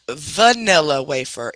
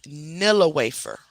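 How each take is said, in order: First: Vanilla Wafer said slowly in full as the wrong name. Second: Nilla Wafer said slowly and softer, without va-; correct name. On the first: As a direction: Vanilla Wafer with the va- syllable, drawn out. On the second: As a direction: Nilla Wafer, two syllables then wafer, gently corrected. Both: Shown as a demonstration. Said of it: "it's not Vanilla Wafer. It's Nilla Wafer".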